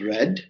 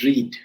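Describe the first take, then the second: First: It rhymes with red, with a short vowel. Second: It rhymes with reed, with a long vowel. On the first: The reading happened in the past. "it one sentence is pronounced as read" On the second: The reading is in the present or future. "and another sentence is pronounced as read"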